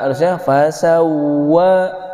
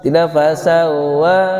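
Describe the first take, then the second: First: The doubled w is full with rounded lips. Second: The doubled w is weak, lips not rounded. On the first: The speaker calls it right. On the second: The speaker calls it wrong.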